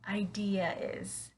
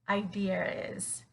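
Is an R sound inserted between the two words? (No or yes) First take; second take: no; yes. First: The vowels join with no R sound. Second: An R sound links the two words. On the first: "if I were to say it without the R sound" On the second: "if we were to connect these two words with the er sound"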